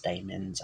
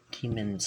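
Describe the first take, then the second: First: DAEMONS said with a long "day" first syllable; older pronunciation. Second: Said in the usual way. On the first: Shown as a demonstration. Offering viewers a possible older pronunciation, DAEMONS as DAY-muns. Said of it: "they may have been pronounced". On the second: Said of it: "they may have been pronounced daemons".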